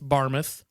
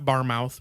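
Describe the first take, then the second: First: It is said in a British-style way. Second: It is said in an American-style way. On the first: "I'm guessing it's Barmouth" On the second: "probably not Barmouth, which is how an ignorant American would say it"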